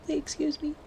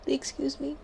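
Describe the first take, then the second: First: Even higher mock-indignant excuse me, with Excuse raised further. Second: High mock-indignant excuse me, with Excuse raised. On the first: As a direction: push Excuse me higher, playfully outraged. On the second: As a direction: squeak Excuse me up high, playfully offended. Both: Scolding Fizz to use command.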